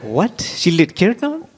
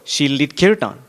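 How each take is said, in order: First: Much higher, slow, rising disbelief; incredulous. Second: Said in the usual way. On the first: Retold or imitated. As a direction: echo it back as if you can't believe it. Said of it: "And they're like".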